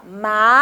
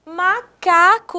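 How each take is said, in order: First: MA, CA, CO with long gaps between; syllable by syllable. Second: "Macaco" joined up, slow and higher; whole word, slowly. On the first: Teacher pronouncing all syllables in little pieces, syllable by syllable. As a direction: break "Macaco" into three separate pieces. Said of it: "Todas as sílabas em pedacinhos". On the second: Teacher revealing which word the pieces make, whole word slowly. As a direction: run MA-CA-CO together as one drawn-out word. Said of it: "perceber qual é o som, qual é a palavra". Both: Shown as a demonstration.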